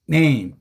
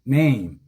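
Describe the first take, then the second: First: The word is said with strong stress at the front. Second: The word is said with strong stress at the front.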